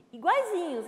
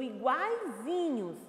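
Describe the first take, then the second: First: "iguaizinhos" higher and louder, stressed; emphatic repeat. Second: Said in the usual way. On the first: Shown as a demonstration. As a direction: repeat "iguaizinhos" with a strong high accent. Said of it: "eles são iguaizinhos". ("iguaizinhos" repetido mais alto e enfático) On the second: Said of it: "eles são irmãos gêmeos".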